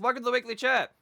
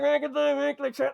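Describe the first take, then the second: First: The voice sounds clear and clean. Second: The voice sounds muffled and harsh. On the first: The speaker calls it right. "instead of me sounding like I do now" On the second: The speaker calls it wrong. "I had a crappy microphone and no sound treatment. So this is what I sounded like"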